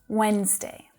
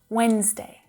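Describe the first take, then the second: No difference in how they are said.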